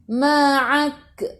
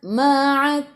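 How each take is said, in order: First: The final k has a strong, bouncing burst of air. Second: The final k has only a slight puff of air. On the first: The speaker calls it wrong. "Kalau banyak dia jadi ma'ak" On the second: The speaker calls it right. "sikit je"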